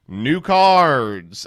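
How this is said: It is said in a put-on, decayed-sounding voice.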